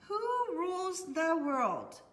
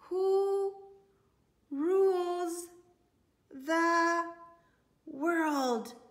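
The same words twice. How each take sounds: First: The question is read very fast. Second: The question is read at a normal pace. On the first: "Let's read that real fast" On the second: "Can you say that with me?"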